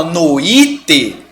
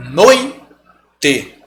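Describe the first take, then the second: First: "noite" as no-Í-te with a stressed I; slow "noite" in three syllables, leaning on I; wrong hiatus. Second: "noite" in two slow syllables, NOI, te; correct diphthong. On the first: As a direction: split the O from the I in "noite". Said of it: "você tá dando uma força pra essa semivogal". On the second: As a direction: keep OI together in "noite", then pause before te. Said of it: "Igual noite". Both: Shown as a demonstration.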